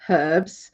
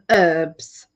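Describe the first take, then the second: First: The word begins with an audible h sound. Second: The word begins with no h sound. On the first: This is how people in England say it. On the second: This is how people in America say it.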